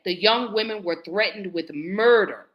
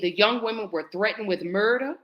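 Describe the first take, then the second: First: It is said louder, with more force. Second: It is said at normal, quieter volume.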